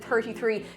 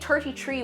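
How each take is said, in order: First: The th sounds are said as soft th sounds. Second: The th sounds are said as plain t sounds. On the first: This is the number the coworker meant. "when he said" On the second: This imitates how a coworker said the number. "an Irish coworker who'd say"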